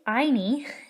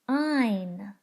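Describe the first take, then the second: First: The final E is pronounced as a vowel. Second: The final E makes no sound. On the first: The speaker calls it wrong. "Don't say eine" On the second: The speaker calls it right. "The E can't make any sound at all"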